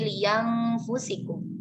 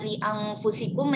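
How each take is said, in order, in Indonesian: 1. Hamzah diganti dengan bunyi "y". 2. Hamzah dibaca sebagai glottal stop.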